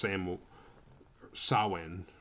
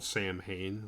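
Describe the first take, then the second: First: It is said as two syllables: sow-in. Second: It is said as written: sam-hain. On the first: The speaker calls it right. "but it's pronounced Sam Sawin" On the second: The speaker calls it wrong. "it's spelled Sam Hain"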